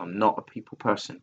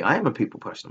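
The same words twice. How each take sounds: First: NOT leaned on, then taken back; stress on not. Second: AM punched, falling, correcting himself; stress on am. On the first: To listeners, first claiming he isn't social, stress on not. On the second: Correcting himself to listeners, firm stress on am. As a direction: hit the word am to set the record straight. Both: Real, not acted. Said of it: "no, that's wrong of me".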